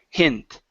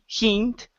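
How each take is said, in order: First: The vowel is a short 'i' sound. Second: The vowel is a long 'ee' sound. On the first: The speaker calls it right. "it's I, hi, hint" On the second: The speaker calls it wrong. "Instead of saying he, hint, with a long E"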